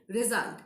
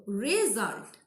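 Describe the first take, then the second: First: Said in the usual way. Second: "result" stretched slowly as re... sult; syllable by syllable. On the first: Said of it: "we are pronouncing at a stretch". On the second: Shown as a demonstration. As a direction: draw out both syllables of "result". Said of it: "you can differentiate it if you want".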